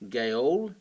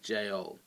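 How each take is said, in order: First: The word begins with a hard g sound. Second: The word begins with a j sound. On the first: This is the northern French form. "gaole was sort of in the north of France" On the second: This is the Parisian form. "Parisians pronounced it this way"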